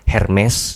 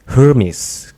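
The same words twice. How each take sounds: First: The name is said with a Batak accent. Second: The name is said with an American accent. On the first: "nah itu mungkin orang Batak mungkin" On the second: "kalau U S, Amrik gitu Hermes gitu"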